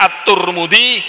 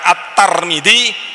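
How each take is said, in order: First: The vowel after the T is u. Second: The vowel after the T is a. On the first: "bisa dibaca At-Turmudi" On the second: "bisa dibaca At-Tarmidzi"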